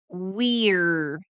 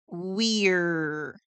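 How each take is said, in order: First: The two words merge into one syllable. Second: The same.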